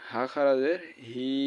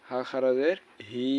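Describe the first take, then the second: No difference in how they are said.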